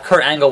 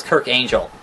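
First: Said in the usual way. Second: "Kirk Angel" with Angel like the heavenly being; deliberately wrong "Kirk Angel"; mispronounced name. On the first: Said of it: "Kurt Angle was Kirk Angel". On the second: Retold or imitated. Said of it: "mispronounce everyone's name".

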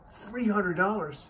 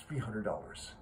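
First: High, drawn-out echo of disbelief; incredulous. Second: Said in the usual way. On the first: Acted. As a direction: balk at the price, slow and high. Man balks at boy's price.

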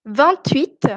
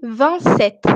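First: "vingt-huit" with T linked into "huit"; sounded T liaison. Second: "vingt-sept" with no T after "vingt"; silent T. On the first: Teacher contrasts two numbers for class, liaison T in "vingt-huit". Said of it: "Ici je prononce aussi". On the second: Teacher contrasts two numbers for class, silent T in "vingt-sept". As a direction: leave the T of "vingt" unsounded in "vingt-sept". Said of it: "alors que je prononce". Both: Shown as a demonstration.

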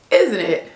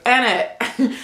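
First: "Isn't it" the American way, every part sounded; American pronunciation. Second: "Ain't it" squashed to British "innit"; British contraction. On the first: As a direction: say "Isn't it" uncontracted, American style. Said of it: "Americans, we say". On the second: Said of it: "they use the contraction and say". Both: Shown as a demonstration.

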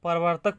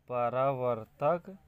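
First: Said in the usual way. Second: परावर्तक stretched out syllable by syllable; drawn-out परावर्तक, ending on a rise; slow dictation. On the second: Shown as a demonstration. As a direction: dictate परावर्तक slowly as if writing it. Dictates term while writing.

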